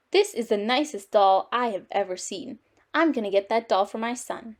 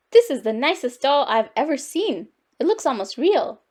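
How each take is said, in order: First: Lightly voiced, even-toned man; a hint of a pleased male shopper; admiring man. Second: Lilting delight at a lovely doll; admiring lady. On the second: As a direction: gush a little over a find. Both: A narrator's reading.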